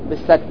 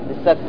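The two takes are said the same way.

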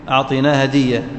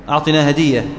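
No difference in how they are said.

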